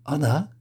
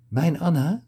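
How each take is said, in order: First: Higher, rising disbelieving question; a lightly voiced gasp of recognition; stunned surprise. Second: Much higher, rising, breathless question; the name hits him hard, lift it high; astonished disbelief. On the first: Kibbe hears his lost love's name, stunned. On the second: Kibbe realises the woman is his Anna, astonished. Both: A narrator's reading. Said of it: "Kibbe's mond was opengevallen".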